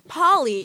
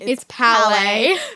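First: The name is said like the word Polly. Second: The name is said like the word Palais. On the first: The speaker calls it wrong. "Remember when we would always mispronounce the principal's name?" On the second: The speaker calls it right. "guys, it's Palais"

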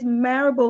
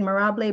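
First: The name rhymes with parable. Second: The name does not rhyme with parable. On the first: The speaker calls it right. "she said it's Marable like parable" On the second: The speaker calls it wrong. "I mispronounced your name"

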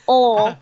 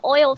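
First: The word is said with a Southern drawl. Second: The word is said without a Southern drawl. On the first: "I said that with my accent"

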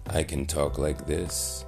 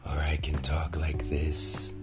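First: The voice is pitched low and deep. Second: The voice is airy and breathy. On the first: "I'm talking in a much deeper tone of voice" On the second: "I'm talking all breathy"

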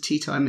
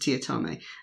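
First: It is said as two plain words, tea time. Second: It is said as one blended name, tiatame. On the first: The speaker calls it wrong. "my name's not Mr. Tea Time" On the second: The speaker calls it right. "it's Mr. Tiatame"

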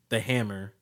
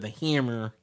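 First: The word is said in a plain, normal accent. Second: The word is said in a New Jersey-style accent.

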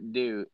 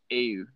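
First: The vowel is a plain English 'oo' sound. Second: The vowel is a rounded French 'u' sound. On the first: The speaker calls it wrong. "it's not do" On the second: The speaker calls it right. "It's ew"

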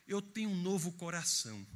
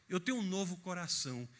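The two takes are said the same way.

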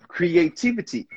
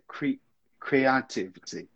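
First: The stress falls on the 'tiv' syllable. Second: The stress falls on a different syllable. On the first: The speaker calls it right. "Good. That's it" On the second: The speaker calls it wrong. "You put the emphasis in the wrong place"

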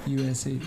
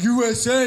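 First: It is said quietly without pride. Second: It is said loudly and proudly. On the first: The speaker is not proud of the country. "they don't say that with any pride at all" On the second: The speaker is proud of the country. "They used to be so proud"

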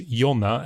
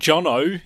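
First: The name is said with Swedish pronunciation. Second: The name is said with an Australian accent. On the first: The speaker calls it right. "so that people pronounce it correctly as Jonna" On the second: The speaker calls it wrong. "Or Jono, if you're from Australia"

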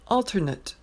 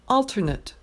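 First: It is pronounced as the noun form. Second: The same.

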